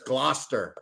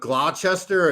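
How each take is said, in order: First: It is pronounced in the short local way. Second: It is pronounced letter by letter, as spelled. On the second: "Instead of"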